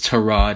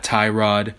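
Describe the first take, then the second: First: The first syllable has a short 'eh' vowel. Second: The first syllable has an 'eye' vowel. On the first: The speaker calls it right. "it is Terod" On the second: The speaker calls it wrong. "not Tyrod"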